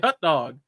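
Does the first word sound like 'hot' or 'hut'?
hut. The first word sounds like 'hut'. This is the speaker's own accent. "but I say hot dog"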